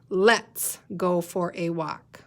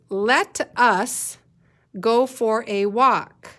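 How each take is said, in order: First: Let and us are squeezed into one syllable. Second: Let and us are said as two full words. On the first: "read it like it writes" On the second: "read it with the big words"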